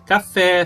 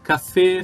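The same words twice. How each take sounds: First: The final vowel is open, like Portuguese é. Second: The final vowel is closed, like Portuguese ê. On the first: The speaker calls it wrong. "nós brasileiros temos uma tendência para falar café" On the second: The speaker calls it right. "o som sempre fechado"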